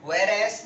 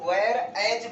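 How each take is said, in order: First: The word ends with a hissing s sound. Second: The word ends with a buzzing z sound. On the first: The speaker calls it wrong. "वेयर एस नहीं बोलेंगे" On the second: The speaker calls it right. "इसको वेयर एज बोलेंगे"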